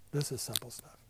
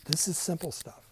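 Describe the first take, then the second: First: "this" stressed, rest softer. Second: "is" lifted and leaned on; stress on is. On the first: Pastor reassuring class, softly stressing "this". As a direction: quietly point to "this". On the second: Pastor reassuring class, stress on "is". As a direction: insist it "is" simple. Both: Shown as a demonstration.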